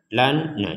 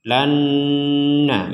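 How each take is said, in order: First: The n is said clearly with no nasal hum. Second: The n is merged and held with a nasal hum. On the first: The speaker calls it wrong. "Misalkan ini dibaca dengan jelas ... nggak ada dengung sama sekali" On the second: The speaker calls it right. "Kalau yang ini dibaca dengan dengungan"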